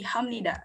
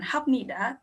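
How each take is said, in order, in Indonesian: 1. Konsonan sebelum 'nida' adalah bunyi 'm'. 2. Konsonan sebelum 'nida' adalah bunyi 'p'. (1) "tapi Hamnida" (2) "bacanya bukan Hamnida"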